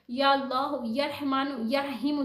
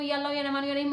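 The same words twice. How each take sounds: First: It is said slowly and calmly. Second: It is said quickly and hurriedly.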